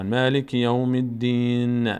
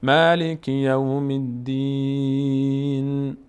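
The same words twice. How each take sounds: First: "الدین" recited with a vowel added after ن; mistaken verse ending. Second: "الدین" held very long, closing on a still ن; correct pausal ending. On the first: Teacher imitates learners' mistake, "الدین" with voweled final ن. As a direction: chant it, wrongly releasing "الدین" into an extra short vowel. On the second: Teacher shows stopping at verse end, "الدین" long with silent-ended ن. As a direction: chant slowly and stop "الدین" on a vowelless ن. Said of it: "اما اگر ایستادیم". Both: Shown as a demonstration.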